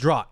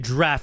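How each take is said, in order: First: The vowel sounds like 'out', with no f. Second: The vowel sounds like 'laughed', with an f. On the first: The speaker calls it wrong. "That's what I said, guys" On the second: The speaker calls it right. "It's actually draft ... There's an F in there"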